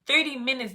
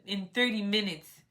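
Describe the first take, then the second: First: High, incredulous question; shocked disbelief. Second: Said in the usual way. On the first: Retold or imitated. Retelling the registration news, shocked disbelief. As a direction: react like you can't believe it.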